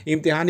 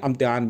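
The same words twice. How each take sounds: First: इम्तिहान with an opening 'i' sound; starts with i. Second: इम्तिहान with an opening 'a' sound; starts with a. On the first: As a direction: say "imtihaan", short 'i' first in इम्तिहान. (इम्तिहान, 'इ' से शुरू) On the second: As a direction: say "amtihaan", 'uh' first in place of 'i' in इम्तिहान. (इम्तिहान को 'अ' से शुरू करें, 'अम्तिहान') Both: Shown as a demonstration. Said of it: "थोड़ा सा आ और ई का फ़र्क".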